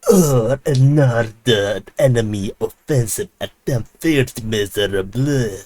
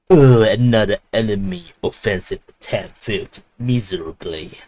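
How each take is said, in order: First: Put-on slow, sneering British villain accent; British evil person accent. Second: A hint of a sneering British villain; mock the taunt in a posh villain accent; British evil villain accent. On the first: Russian ministry taunting Ukrainians, slow British villain accent. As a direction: drawl it like a gloating British villain. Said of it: "British, uh, evil person accent". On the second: Russian ministry taunting Ukrainians, mock British villain accent. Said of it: "not in this accent".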